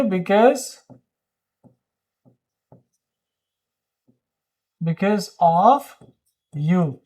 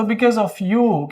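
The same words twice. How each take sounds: First: Because of you with long pauses between the words. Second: Said in the usual way. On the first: Shown as a demonstration. Teacher drilling the phrase word by word for students. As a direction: hold a pause before each word. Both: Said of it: "क्या बोलेंगे?".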